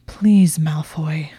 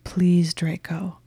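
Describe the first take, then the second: First: A forced plea, pushed out through gritted teeth then dropping to a whisper; grudging whisper through gritted teeth. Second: A whispered, whimpering plea. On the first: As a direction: plead to a rival you resent, teeth gritted. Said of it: "she said through gritted teeth". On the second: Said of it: "She was whimpering". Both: Acted.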